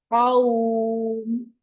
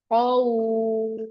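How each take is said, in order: Both takes have the same delivery.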